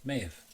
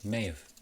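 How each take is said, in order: First: Have is reduced, sounding like may've. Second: Have is reduced, sounding like may've.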